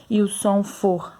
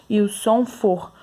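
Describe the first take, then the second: No difference in how they are said.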